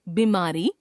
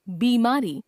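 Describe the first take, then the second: First: बीमारी with short "bi"; mispronounced first vowel. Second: Said in the usual way. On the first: Shown as a demonstration. Teacher showing a common error, बीमारी with short first vowel. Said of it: "अशुद्ध". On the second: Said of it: "शुद्ध".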